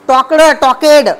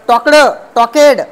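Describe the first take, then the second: No difference in how they are said.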